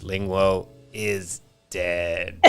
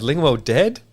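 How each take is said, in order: First: Very slow dying robot voice. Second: High, loud Homer question; Homer asking. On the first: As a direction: drag it out with a last breath. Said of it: "dying breath, the robot goes". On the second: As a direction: ask it like a dim, stunned Homer. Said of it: "He goes". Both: Retold or imitated.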